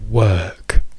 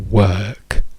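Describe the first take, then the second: Both takes have the same delivery.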